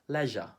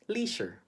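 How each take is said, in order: First: The word is said with a British accent. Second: The word is said with a Filipino accent. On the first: "In the U K, they would say" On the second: "how do Filipinos pronounce this word?"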